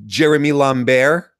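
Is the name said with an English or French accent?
English. The name is said with an English accent.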